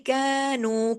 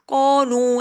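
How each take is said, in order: First: The vowel is thin, with the mouth kept low. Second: The vowel is heavy and rounded, like 'o'. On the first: The speaker calls it right. "मुंह को नीचे, जुबान को नीचे रख के" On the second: The speaker calls it wrong. "ऐसे नहीं कर देना"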